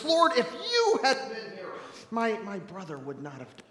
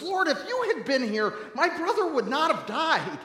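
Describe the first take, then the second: First: Blaming lament. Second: High-pitched, accusing lament; half yelling. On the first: Mary at Jesus' feet blaming him, lamenting. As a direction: blame him, then let the voice sink. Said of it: "laments and then blames Jesus". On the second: Martha admonishing Jesus over her brother, half yelling. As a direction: scold him with a raised, pitched-up voice. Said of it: "kinda yells at Jesus". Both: Acted.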